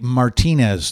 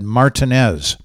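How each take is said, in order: First: One syllable is stressed more than the others. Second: Every syllable gets equal stress. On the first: "we don't even say Martinez there" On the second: "every syllable receives equal emphasis"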